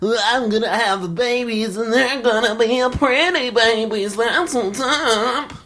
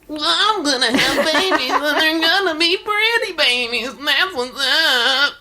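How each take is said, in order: First: It is a Chuck voice with mild surfer tone. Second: It is a Chuck voice with strong surfer tone.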